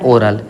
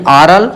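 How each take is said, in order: First: ओरल with a closed ओ, like oh; ओरल pronounced oh-ral. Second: ऑरल with an open ऑ, like aw; ऑरल pronounced aw-ral. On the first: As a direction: say ओरल with the tight ओ vowel. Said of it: "और ये क्या है". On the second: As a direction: say ऑरल with the wide ऑ vowel. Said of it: "यानी ऑरल". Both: Shown as a demonstration.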